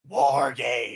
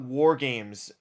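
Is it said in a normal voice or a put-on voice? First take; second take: put-on voice; normal voice. First: It is said in an exaggerated, imitated announcer voice. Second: It is said in a plain, normal speaking voice. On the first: "that was a little bit too Vince" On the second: "you didn't say it right"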